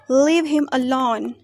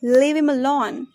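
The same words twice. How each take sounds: First: Said in the usual way. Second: "him" without its h, run into "leave"; weak form of HIM. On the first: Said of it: "For example". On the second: Shown as a demonstration. Teacher showing learners weak forms, "him" said as 'im'. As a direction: link it as 'leavim alone'. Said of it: "We pronounced".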